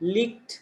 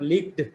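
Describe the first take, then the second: First: The word ends in a t sound. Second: The word does not end in a t sound. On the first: The speaker calls it right. "Then k, ... This is licked" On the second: The speaker calls it wrong. "this is not licked"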